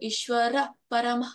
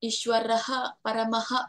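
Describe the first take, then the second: First: Each word ends on a plain vowel. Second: Each word ends with a breathy h sound. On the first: The speaker calls it right. "ಅಲ್ಲಿ ನಮ್ಗೆ ಹ ಅನ್ನೋ ಉಚ್ಚಾರ ಬರಬಾರ್ದು" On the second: The speaker calls it wrong. "ಅನ್ನಂಗಿಲ್ಲ, ಅನ್ಬಾರ್ದು"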